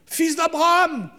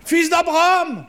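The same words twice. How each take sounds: First: High, slow, far-off call; distant calling voice. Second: High, loud, far-off call; distant calling voice. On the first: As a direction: call out from far away like a god. Voix lointaine de Dieu appelant. (voix lointaine qui appelle) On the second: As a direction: call out louder, echoing from above. Voix lointaine répète l'appel. (voix lointaine qui appelle plus fort) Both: Pretend.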